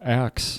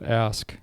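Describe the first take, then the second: First: The word ends with a 'ks' sound. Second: The word ends with an 'sk' sound. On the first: The speaker calls it wrong. "ax instead of ask" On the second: The speaker calls it right. "instead of ask"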